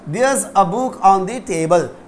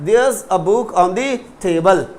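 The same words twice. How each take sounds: First: 'There is' is contracted into one syllable. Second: The same.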